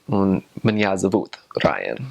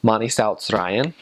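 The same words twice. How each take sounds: First: Russian "mani zovut Ryan", stress on the second syllable of zovut; Russian intonation. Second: Slow, even Latvian "Mani sauc Ryan", stress on first syllables; Latvian intonation. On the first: Same introduction switched into Russian. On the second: Introducing herself in Latvian, evenly stressed. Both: Shown as a demonstration. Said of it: "go from Latvian intonation to Russian intonation".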